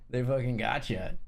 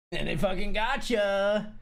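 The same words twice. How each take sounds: First: Said in the usual way. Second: Slow, drawn-out "gotcha"; slow stressed gotcha. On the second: Shown as a demonstration. To chat about the trap, slow punchy "gotcha". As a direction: lean on "fucking gotcha" and stretch it.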